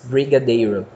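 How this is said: It is said with a strongly forced foreign R. "ele força mais o R"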